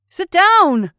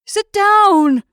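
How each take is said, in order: First: Loud, high command; shouted order. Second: Very loud, high bellow; final roar. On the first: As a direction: order them down sharply. Orders standing man in boat. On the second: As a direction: roar it with everything left. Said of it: "in a final roar". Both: A narrator's reading.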